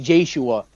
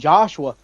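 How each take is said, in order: First: The final 'a' is drawn out and stressed. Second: The final 'a' is light and unstressed. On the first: The speaker calls it wrong. "would overemphasize the A in my name" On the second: The speaker calls it right. "instead of saying Joshua"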